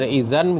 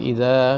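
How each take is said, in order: First: The word ends with an n sound. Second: The word ends with a long a vowel. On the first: "dari aja idzan" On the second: "menjadi idza gitu"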